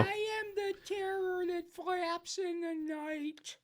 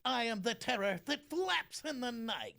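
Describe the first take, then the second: First: Much higher, very slow cartoon voice; character voice. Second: Higher, slow cartoon bear voice; Winnie the Pooh voice. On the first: Voice swap game, the same line in a very slow, high cartoon voice. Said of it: "say the same line in one of your characters". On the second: Voice swap game, the line as Winnie the Pooh. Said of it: "Jim will say a line as Winnie the Pooh".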